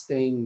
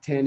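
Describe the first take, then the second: First: "ten" ending in an "ng" sound, like "teing"; mispronounced ten. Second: Said in the usual way. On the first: Shown as a demonstration. Teacher showing learners' number slips, "ten" mispronounced as "teing". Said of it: "do they mispronounce". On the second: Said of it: "that ten is ten".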